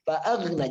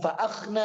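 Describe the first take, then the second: First: The middle consonant is a soft, voiced gargled gh. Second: The middle consonant is a harsh, voiceless scraped kh. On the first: The speaker calls it right. "Fa'aghna, aghna, aghna, ghaghiru bag" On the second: The speaker calls it wrong. "jangan fa'akhna ya"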